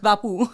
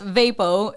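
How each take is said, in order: First: It is said with a Filipino accent. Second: It is said with an American accent.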